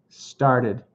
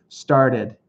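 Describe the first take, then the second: The two takes are said the same way.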